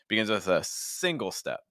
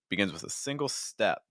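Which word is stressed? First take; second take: single; step. First: The word single carries the main stress. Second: The word step carries the main stress. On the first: The speaker calls it wrong. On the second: The speaker calls it right.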